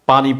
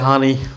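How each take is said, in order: First: It is said with a standard p sound. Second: It is said with a Kishoreganj h sound.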